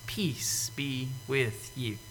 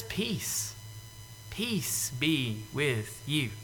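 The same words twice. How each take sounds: First: Slow, hushed whisper; Jesus whispering peace to the disciples; soft whisper. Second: Soft, slow, tender blessing; calm them like frightened children; Jesus gently greeting the scared disciples; gentle peace. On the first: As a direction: breathe it out tenderly. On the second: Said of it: "He just says". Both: Retold or imitated.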